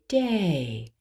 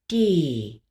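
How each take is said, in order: First: The vowel glides into a second vowel. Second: The vowel is a tense pure closed e. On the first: The speaker calls it right. "We say day" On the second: The speaker calls it wrong. "We don't say have a good D"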